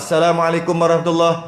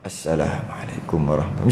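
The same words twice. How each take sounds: First: It is said loudly. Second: It is said very softly.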